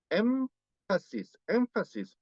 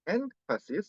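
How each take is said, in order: First: "énfasis" as "emfasis", higher pitch. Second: "énfasis" split as "en / fasis"; syllable break after N. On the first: Teacher correcting students, "énfasis" with M before F. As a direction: close the lips on the nasal in "énfasis". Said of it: "Se pronuncia con una, una M". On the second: Teacher showing the Korean mistake, "énfasis" broken after N. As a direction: cut "énfasis" after a clear N. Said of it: "suele dar pausa entre sílabas". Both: Shown as a demonstration.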